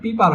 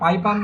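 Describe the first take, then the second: First: The first vowel sounds like 'pee'. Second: The first vowel sounds like 'pie'. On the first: The speaker calls it right. "এটা হচ্ছে পিপার হবে" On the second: The speaker calls it wrong. "পাইপার না"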